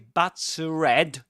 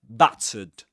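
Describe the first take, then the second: First: The ending is not a schwa sound. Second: The ending is a schwa sound. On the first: The speaker calls it wrong. "We don't say battered" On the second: The speaker calls it right. "the ending here is a schwa"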